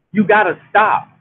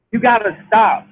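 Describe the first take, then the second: No difference in how they are said.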